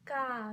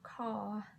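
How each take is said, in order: First: The word starts with a voiced 'g' sound. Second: The word starts with a voiceless 'k' sound. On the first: The speaker calls it right. "it's pronounced ga" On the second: The speaker calls it wrong. "not ka"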